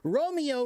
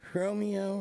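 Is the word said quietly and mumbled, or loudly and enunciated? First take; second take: enunciated; mumbled. First: It is loud and clearly overpronounced, like stage acting. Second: It is quiet and mumbled, with little mouth movement. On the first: Everyone in the room can hear it. The speaker calls it right. "It's called enunciation" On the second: The audience at the back cannot hear it. The speaker calls it wrong. "No one's going to hear you"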